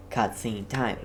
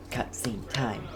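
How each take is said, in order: Both takes have the same delivery.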